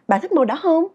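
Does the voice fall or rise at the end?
rise. The voice rises on the final word. The speaker calls it right. "Tiếng Việt mình nói là"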